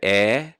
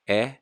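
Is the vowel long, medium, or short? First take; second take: long; medium. First: The vowel is held long. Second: The vowel is held a medium length.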